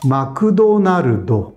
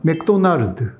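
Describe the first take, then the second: First: It is said with Japanese vowels after every consonant. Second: It is said with Korean pronunciation. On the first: "일본말로 하면 ... 다 모음이" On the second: "한국 발음도 조금 다른데"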